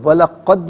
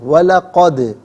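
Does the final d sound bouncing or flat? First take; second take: flat; bouncing. First: The final d stops flat with no echo. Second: The final d bounces with a slight echo. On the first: The speaker calls it wrong. "वलक़द नहीं" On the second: The speaker calls it right. "आवाज़ लौटती भी महसूस होनी चाहिए"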